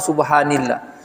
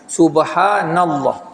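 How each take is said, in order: First: The vowel after subhan is i. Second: The vowel after subhan is a. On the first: The speaker calls it wrong. "atau subhanillah" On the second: The speaker calls it right. "dibaca dengan mansub subhanallah"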